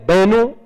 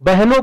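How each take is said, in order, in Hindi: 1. h ध्वनि गिर जाती है या कमज़ोर पड़ जाती है। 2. h ध्वनि पूरी तरह साँस वाली और महाप्राण है।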